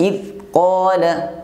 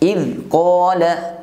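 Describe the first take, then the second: First: The z sound is cut off abruptly. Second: The z sound is cut off abruptly.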